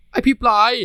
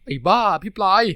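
First: Much higher, louder furious cry; loud high outraged yell; angry yell. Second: Higher, louder scolding cry; loud high playful scold; scolding yell. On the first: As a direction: shout him down. Talay snaps at his boyfriend. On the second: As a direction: yell at him in mock outrage. Talay scolds his boyfriend. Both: Acted.

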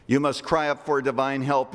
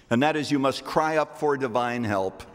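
First: "cry" pressed firmly in the repeat; stress on cry. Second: Said in the usual way. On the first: Shown as a demonstration. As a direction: hit the word "cry" on the second time.

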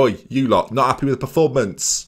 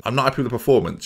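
First: "not" stressed in a sassy, mocking scold at the squad; sassy telling-off. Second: Said in the usual way. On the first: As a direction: tell them off with mock sass on "not". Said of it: "wouldn't say it with that much sass". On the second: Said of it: "You've gotta give it to them".

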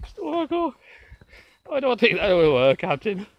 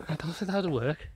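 First: Louder, higher mock Scottish; hammed-up Irish that has turned Scottish; accent gone Scottish. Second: Put-on light Irish accent, tailing off softer; a hint of Irish, slipping off course; understated mock Irish accent; attempted Irish accent. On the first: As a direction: do a bad Scottish-sounding O'Brien, pitched up. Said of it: "you've gone Scottish instead of Irish". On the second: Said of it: "Even with your accent".

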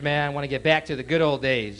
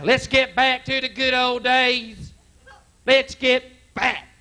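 First: Said in the usual way. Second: High, slow preaching chant; preacher voice. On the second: Retold or imitated. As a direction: preach it like a fired-up pastor. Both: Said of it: "That's their theme now".

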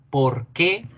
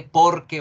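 First: "Por qué" as two words, accent on "qué"; stress on QUÉ. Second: "por qué" run together as one word; one joined word. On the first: Teacher showing the separated spelling, stress landing on "qué". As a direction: lean on the final E of "Por qué". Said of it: "va separado con tilde en la E". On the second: Teacher showing the joined spelling, "por qué" as one word. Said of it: "va junto". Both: Shown as a demonstration.

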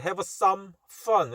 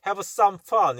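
First: "have some fun" with a small hold after "some"; slight delay. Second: "have some fun" run together without a gap; straight through. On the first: Teacher showing the natural timing, "have some fun" delayed before "fun". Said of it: "조금 딜레이가 약간 있습니다". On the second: Teacher offering an acceptable way, "have some fun" said straight through. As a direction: say "have some fun" as one connected phrase. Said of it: "이렇게 발음해도 될 것 같은데". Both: Shown as a demonstration.

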